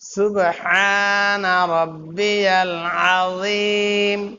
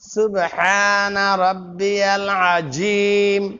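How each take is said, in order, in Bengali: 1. 'azim' শব্দের ব্যঞ্জনটি ঘোষযুক্ত th উচ্চারণ। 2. 'azim' শব্দের ব্যঞ্জনটি সাধারণ z উচ্চারণ। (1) "জাল হয়ে যাবে।" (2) "জিম হয়ে গেল।"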